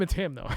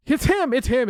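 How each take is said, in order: First: Said in the usual way. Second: Loud, high, certain it's him; excited. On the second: Real, not acted. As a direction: blurt it out triumphantly. Excited accusation of suspect.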